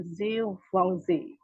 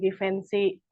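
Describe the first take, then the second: First: It is said with a French pronunciation. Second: It is said with an Indonesian pronunciation. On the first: "dalam bahasa Prancisnya itu dibaca Givenchy" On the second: "kita biasa suka baca ya"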